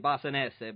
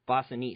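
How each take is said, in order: First: The surname is pronounced in an Italian way. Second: The surname is pronounced in an English way. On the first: "if we were in Italy, like you said, it would be Bossanese" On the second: "hopefully I nailed the pronunciation"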